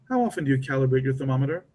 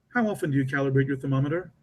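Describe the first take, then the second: No difference in how they are said.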